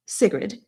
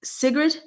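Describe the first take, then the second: First: Said in the usual way. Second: Sigrid said high with a rising, asking tune; questioning pronunciation. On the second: Shown as a demonstration. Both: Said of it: "how to pronounce your name".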